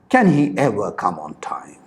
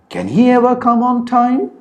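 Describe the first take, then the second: First: The pitch falls at the end. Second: The pitch rises at the end. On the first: It is a rhetorical question expecting no answer. "polar question said with a falling intonation is perceived as a rhetorical question" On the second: It is a genuine question expecting an answer. "polar questions are said with a rising intonation"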